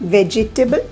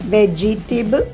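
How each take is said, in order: First: The word is said with four syllables. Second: The word is said with four syllables.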